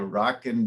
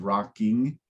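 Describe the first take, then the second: First: The ending is said as 'in' without the g. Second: The ending is said fully as 'ing' with the g. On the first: "that's a little bit of slang. I'm intentionally pronouncing it like" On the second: "instead of rocking"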